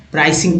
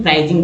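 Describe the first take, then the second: First: प्राइसिंग said with a clear s sound, "praising"; crisp s in प्राइसिंग, not z; correct pronunciation. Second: प्राइसिंग said with a z sound, "praizing"; the common mistake, प्राइसिंग voiced as praizing; wrong pronunciation. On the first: Teacher reading the word correctly: प्राइसिंग with s. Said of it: "अलग तरह से उच्चारण होता है प्राइसिंग". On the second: Teacher showing students the wrong way: प्राइसिंग with z. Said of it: "कुछ लोग प्राइसिंग बोल देते हैं". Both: Shown as a demonstration.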